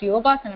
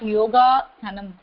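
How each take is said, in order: First: The word is said as one unbroken unit. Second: The word is split into two parts. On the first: The speaker calls it right. "It's yoga sanam" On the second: The speaker calls it wrong. "not yoga sanam. It's the wrong"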